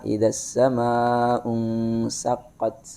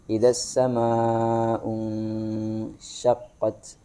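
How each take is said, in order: First: The last word starts with a plain s sound. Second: The last word starts with an sh sound. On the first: The speaker calls it wrong. "kedengarannya tadi adalah" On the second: The speaker calls it right. "Di situ adalah shin dan bukan sin"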